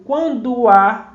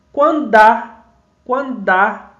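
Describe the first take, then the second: First: "Quando há" with quando and há said as separate syllables; written syllables. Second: "quando há" with the o of quando merging into há, sounding like "quand'há"; fused vowels. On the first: Teacher shows the separated written form first. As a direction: say "Quando há" slowly, keeping the final o of quando apart from há. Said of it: "na escrita eu digo". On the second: Teacher shows the spoken fused form, louder. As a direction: run quando into há as one syllable, louder. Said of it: "a gente pronuncia assim". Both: Shown as a demonstration.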